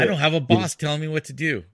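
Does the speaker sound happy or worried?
happy. It is said in a happy, pleased tone. Having no boss is a good thing.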